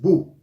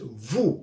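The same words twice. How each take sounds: First: It starts with a two-lip B sound. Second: It starts with a lip-to-teeth V sound. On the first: The speaker calls it wrong. "no es vous" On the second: The speaker calls it right. "es vous con V dentilabial"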